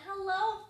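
It is said in a gentle, friendly voice.

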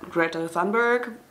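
The name is said with an English accent. "I think English people pronounce it"

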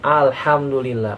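The word is said aloud in full voice. The people around hear it. The speaker calls it right. "Orang dengar"

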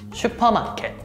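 It is said with Korean pronunciation. "Korean pronunciation"

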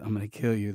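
It is said in a quiet, calm way.

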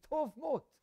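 Said in a German-Jewish accent, sounding like mot.

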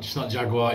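It is said with an American pronunciation. The speaker calls it wrong. "The only word that annoys me when I hear an American say it"

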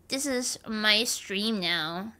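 It is said in a put-on nerd voice.

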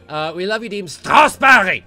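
It is said in a mock German accent.

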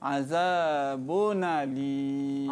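The n runs straight into the next vowel. "Dibaca dengan naqal"

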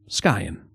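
The word is said with an English pronunciation. This is how an English speaker might say it. "Or as you might pronounce it"

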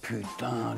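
The word sounds stunned and astonished. The speaker is amazed by something. "la stupeur"

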